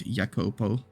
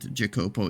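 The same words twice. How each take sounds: First: The name is said in an Italian way. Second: The name is said in an English way. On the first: The speaker calls it right. "because Italian or something" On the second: The speaker calls it wrong. "I said it wrong"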